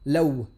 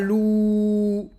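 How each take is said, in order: First: The vowel is 'a' followed by a w sound. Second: The vowel is a long 'oo' sound. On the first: The speaker calls it right. "soukoun sur le waw. Law" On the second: The speaker calls it wrong. "Donc ce n'est pas lou"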